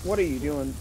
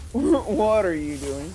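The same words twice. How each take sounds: First: Said in the usual way. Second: Incredulous. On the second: Real, not acted. Repeated incredulous, louder and slower.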